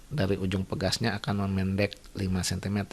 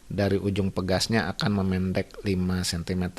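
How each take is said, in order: No difference in how they are said.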